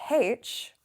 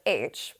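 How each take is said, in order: First: The letter is said as 'haitch'. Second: The letter is said as 'aitch'.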